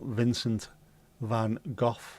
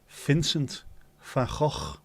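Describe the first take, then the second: First: The name starts with a V sound. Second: The name starts with an F sound. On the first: The speaker calls it wrong. "it's not Vincent van Gogh" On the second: The speaker calls it right. "It is Vincent van Gogh"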